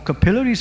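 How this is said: The word is said with a British pronunciation.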